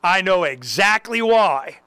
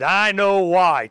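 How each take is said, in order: First: "I know exactly why" drawn out slowly, stressing why; slow, deliberate, all-knowing; slow knowing emphasis. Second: "I know why" drawn out slowly, leaning on I; slow, deliberate, all-knowing; slow knowing emphasis. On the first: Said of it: "And I go". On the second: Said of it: "and I said". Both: Retold or imitated. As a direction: say it like you saw it coming.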